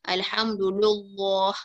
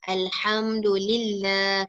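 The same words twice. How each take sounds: First: The L in "lillah" is heavy and thick. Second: The L in "lillah" is light and thin. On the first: The speaker calls it wrong. "kita tak baca" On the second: The speaker calls it right. "kan tipis"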